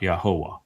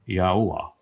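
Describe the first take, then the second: First: The sounds are blended into fewer syllables. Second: Four distinct sounds are said separately. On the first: The speaker calls it wrong. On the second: The speaker calls it right. "There's four distinct sounds from the four different letters, and you don't blend them together"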